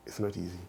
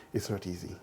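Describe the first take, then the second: No difference in how they are said.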